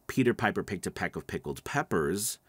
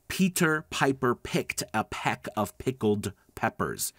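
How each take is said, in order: First: It is said at a normal, relaxed pace. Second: It is said slowly with exaggerated articulation.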